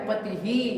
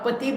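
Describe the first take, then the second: First: The word ends with a breathy 'hi' echo. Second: The word ends plainly on the vowel 'i'. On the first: The speaker calls it right. "विसर्ग है ना, तो पति ही कहना है" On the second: The speaker calls it wrong. "तो हम यहाँ पति बोल रहे थे"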